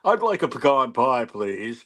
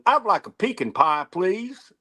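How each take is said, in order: First: Pecan is said in a formal, French-sounding way. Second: Pecan is said in a plain, Texan-sounding way. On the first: "pecan almost sounds French to me because it sounds so much more, you know, formal or something" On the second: "pecan sounds totally Texan"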